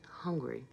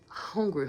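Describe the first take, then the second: First: Soft unvoiced whisper. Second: Said in the usual way. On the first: Real, not acted. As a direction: drop to a whisper. Repeats hungry in contrast.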